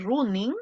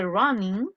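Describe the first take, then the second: First: "running" read with a Spanish U, like "RU-ning"; wrong pronunciation. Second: "running" with a short open first vowel, like "RA-nin"; correct pronunciation. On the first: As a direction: say "running" as spelt, "roo-ning". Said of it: "no puedo decir running". ("running" leído con U española) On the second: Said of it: "para yo hacer la entonación de running". ("running" con primera vocal corta, como "ranin") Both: Shown as a demonstration.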